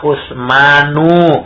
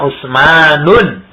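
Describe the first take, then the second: First: The name ends in a plain vowel. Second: The name ends with an added n sound. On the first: The speaker calls it right. "Contohnya misalnya Usmanu" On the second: The speaker calls it wrong. "nggak boleh dibaca Usmanun"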